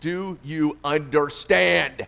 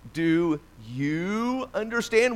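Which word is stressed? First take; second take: understand; you. First: The stress is on "understand". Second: The stress is on "you".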